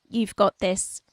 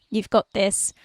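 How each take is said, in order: Both takes have the same delivery.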